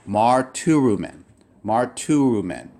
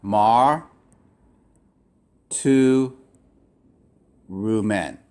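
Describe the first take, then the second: First: "Mar, tu, Rumen" said quickly twice; syllables joined. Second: "Mar, Tu, Rumen" with long pauses between syllables. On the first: Teacher blending the word for the class. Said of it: "That's how you would break up". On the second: Teacher sounding out each syllable. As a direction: split the word slowly. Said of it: "I'm gonna draw this as". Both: Shown as a demonstration.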